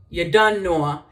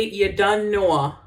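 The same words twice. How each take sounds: First: Jamaican patois said at natural speed, a bit louder; Jamaican patois phrase. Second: Slow, careful Jamaican patois demo; slow Jamaican patois demonstration; Jamaican patois phrase. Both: Shown as a demonstration. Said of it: "if I say".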